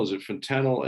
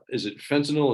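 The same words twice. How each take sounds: First: Fen-TAN-yl, with the middle of "fentanyl" stressed; stress on second syllable. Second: FEN-tanyl, with the first syllable of "fentanyl" stressed. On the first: Speaker unsure of the drug's name tries "fentanyl" stressed on TAN. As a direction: hit TAN in "fentanyl", keep the first syllable short. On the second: Speaker unsure of the drug's name tries "fentanyl" stressed on FEN. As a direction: hit FEN in "fentanyl", let the rest fall away. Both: Shown as a demonstration. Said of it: "I never know where to put the emphasis".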